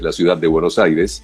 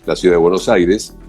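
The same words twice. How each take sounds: First: The word de is clearly heard. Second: The word de is skipped over and not heard. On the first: The speaker calls it right. "ahí sí la mencioné" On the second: The speaker calls it wrong. "Yo ahí la palabra de no la pronuncié"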